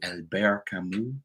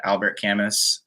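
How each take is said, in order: First: Albert Camus as "al-BEAR ka-MOO", slow; pretentious French pronunciation. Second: Albert Camus as "AL-bert CAM-us", final s sounded; plain English pronunciation. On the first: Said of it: "if you're a pretentious philosophy major". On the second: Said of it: "pretentious philosophy major". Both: Shown as a demonstration.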